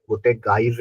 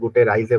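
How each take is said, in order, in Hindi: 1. r गले से निकलने वाली एक खुरदुरी ध्वनि है। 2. r को सामान्य r ध्वनि की तरह बोला जाता है। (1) "रोलिंग साउंड, हल्का सा गले को प्रेस करके" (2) "वो से गुटे राइजे बोलता है"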